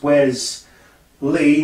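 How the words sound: It is said as two separate words. It is a first name and a surname. The speaker calls it right. "That is two names"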